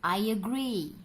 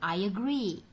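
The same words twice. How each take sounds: The two takes are said the same way.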